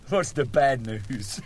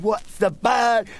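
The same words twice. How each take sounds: First: Slower, near own voice; patient asks, retake. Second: Slow, higher patient voice; drawn-out and puzzled, higher; patient asks, slow. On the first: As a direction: calmer corrected line. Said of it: "We better start again". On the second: Patient asking the nurse, slow and higher. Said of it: "I fucked it up". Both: Acted.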